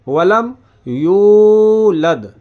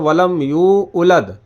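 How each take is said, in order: First: The word is said smoothly as one 'yulad'. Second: The word is split into 'yu' and 'ulad'. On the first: The speaker calls it right. "जबकि वलम यू उलद नहीं है, वलम यूलद" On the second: The speaker calls it wrong. "ज़्यादातर लोग... गलती करते हैं, वो पढ़ते हैं वलम यू उलद"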